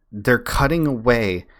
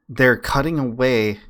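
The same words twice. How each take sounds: The two takes are said the same way.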